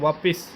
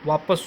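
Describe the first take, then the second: First: The second syllable has an 'i' vowel. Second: The second syllable has an 'a' vowel. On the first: The speaker calls it wrong. "बोलते हैं वापिस" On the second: The speaker calls it right. "वापस शुद्ध होता है"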